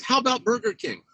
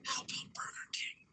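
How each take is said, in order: First: Higher, lightly voiced kid asking; a hint of a little boy asking; mock child request. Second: Put-on whispered into a child's ear; sneaky whispered suggestion. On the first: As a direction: echo it like an eager kid. Brother repeats the line aloud. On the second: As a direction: breathe it softly, secretly. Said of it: "so I whisper in his ear".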